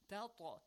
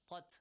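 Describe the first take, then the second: First: The t bounces with a short echo. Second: The t ends flat with no echo. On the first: The speaker calls it right. "It has an echoing sound as well" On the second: The speaker calls it wrong. "That's, wrong"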